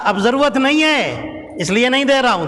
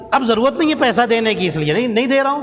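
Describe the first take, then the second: First: اب ضرورت نہیں ہے repeated with weight on نہیں, falling firmly; emphatic repeat. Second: Said in the usual way. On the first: Acted. Preacher repeats the devil's reply to the congregation, firmly stressing نہیں. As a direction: hammer home نہیں as the devil's answer. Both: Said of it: "کیا کہا؟".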